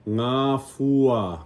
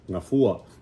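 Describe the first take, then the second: First: The word is said slowly, syllable by syllable. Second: The word is said quickly as one unit. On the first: "even if you need to go slow" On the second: "then you can put it together fast"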